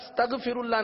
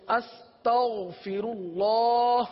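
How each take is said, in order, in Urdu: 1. یہ حرف سخت، رکی ہوئی 'g' آواز ہے۔ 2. یہ حرف حلقی، رگڑ والی 'gh' آواز ہے۔ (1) "استغفر اللہ نہیں پڑھنا" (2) "اب جب بھی استغفار پڑھیں تو استغفر اللہ"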